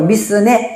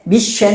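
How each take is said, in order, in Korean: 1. 'n' 앞에 있는 평범한 's' 소리예요. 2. 'sh' 소리이고 뒤에 모음이 있어요. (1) "미스네 이렇게 하면 돼요" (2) "미쉐네 하지 말고"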